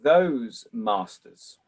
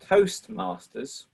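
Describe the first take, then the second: First: "those masters" as two words; slow "those masters", "those" rhyming with "goes"; misheard as those masters. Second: "Toastmasters" with a t closing the first word; "Toastmasters", first syllable ending in st. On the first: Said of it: "I thought you said those masters". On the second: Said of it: "this is a beautiful mishearing". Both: Shown as a demonstration.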